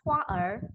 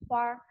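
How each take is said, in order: First: The r sound is said as a separate syllable. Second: The tongue curls up right after the a sound. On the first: The speaker calls it wrong. "jangan huar" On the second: The speaker calls it right. "tapi bacanya huar. Langsung sampai begitu sampai di a, diangkat lidahnya"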